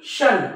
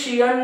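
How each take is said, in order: First: The suffix is said as one syllable, shun. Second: The suffix is said as two syllables, shi-an. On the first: The speaker calls it right. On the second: The speaker calls it wrong. "शियन नाही"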